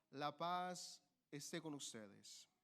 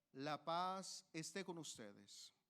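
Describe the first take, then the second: The two takes are said the same way.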